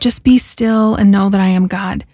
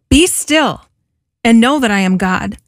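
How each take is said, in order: First: It is said in a calm, tranquil tone. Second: It is said in a forceful, commanding tone.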